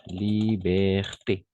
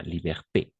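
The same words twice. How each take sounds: First: Liberté drawn out slowly, syllable by syllable; slow model word. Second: Said in the usual way. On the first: Shown as a demonstration. (Liberté muy despacio, de modelo) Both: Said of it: "Par exemple, liberté".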